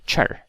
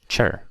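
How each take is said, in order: First: The syllable starts with a ch sound. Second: The syllable starts with a ch sound.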